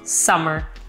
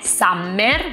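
First: The middle m sound is short, single. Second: The middle m sound is held long, doubled. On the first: The speaker calls it right. "in realtà se ne pronuncia solo una" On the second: The speaker calls it wrong. "noi italiani tendiamo proprio a pronunciarle"

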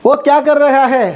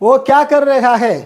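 No difference in how they are said.

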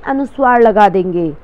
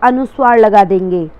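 Both takes have the same delivery.

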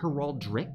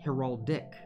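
First: An extra r sound comes before the last syllable. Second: No extra r sound comes before the last syllable. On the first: The speaker calls it wrong. "I always want to say heraldric" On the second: The speaker calls it right. "but it's heraldic"

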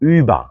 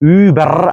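First: The ending is said as a soft a vowel. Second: The ending is said with a clear r sound. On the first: The speaker calls it right. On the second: The speaker calls it wrong. "ഊബർ അല്ല"

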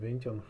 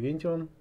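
First: The name is pronounced with English sounds. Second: The name is pronounced with German sounds. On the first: "А по-английски, наверное, Vention или Vention" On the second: "По-немецки Vention"

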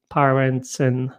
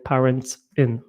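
First: The s runs straight into the next word. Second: The s is kept apart from the next word. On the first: The speaker calls it right. "będziemy przenosić to S do kolejnego słowa" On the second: The speaker calls it wrong. "a nie parents in"

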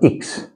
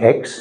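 First: The letter is said the German way. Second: The letter is said the English way. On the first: The speaker calls it right. "sondern X" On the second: The speaker calls it wrong. "Nicht X"

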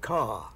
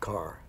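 First: The final r sound is dropped. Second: The final r sound is pronounced. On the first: "that R-less pronunciation whereby you say car" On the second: "not car"

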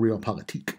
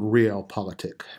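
First: The word is pronounced in a fancier, foreign-sounding way. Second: The word is pronounced in a plain, everyday way.

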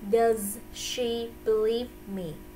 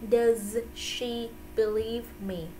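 Both takes have the same delivery.

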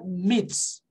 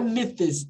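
First: A plain t sound is heard before the final s. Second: A th sound is heard before the final s. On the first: The speaker calls it right. "No plural, é myths" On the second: The speaker calls it wrong. "Mas no plural, não é myths"

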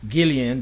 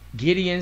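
First: The middle consonant is an L sound. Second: The middle consonant is a D sound. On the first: The speaker calls it wrong. "I did pronounce that Gillian" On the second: The speaker calls it right. "but Gideon with a D"

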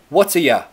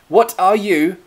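First: The three words are run together and reduced. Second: Each of the three words is said fully.

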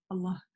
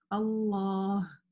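First: The vowel before the final h is short. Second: The vowel before the final h is long. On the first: The speaker calls it wrong. "произносят ее без алиф" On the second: The speaker calls it right. "Нет, у нас там есть алиф"

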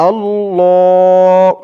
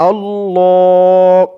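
The two takes are said the same way.

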